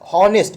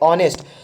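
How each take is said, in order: First: The word begins with an audible h sound. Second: The word begins directly with a vowel sound. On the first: The speaker calls it wrong. "इसको हॉनेस्ट नहीं पढ़ेंगे, हाँ उच्चारण नहीं देगा" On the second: The speaker calls it right. "बल्कि इसे हम पढ़ेंगे ऑनेस्ट"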